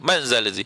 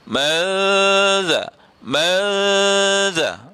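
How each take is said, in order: First: The n is said quickly without nasal hum. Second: The n is hidden with a held nasal hum. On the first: The speaker calls it wrong. "kadang-kadang kita ni baca tak dengung pun. Kita nak baca laju sahaja" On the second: The speaker calls it right. "dengung, nampak"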